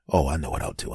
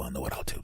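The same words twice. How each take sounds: First: Scheming whisper. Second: Scheming murmur. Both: Acted.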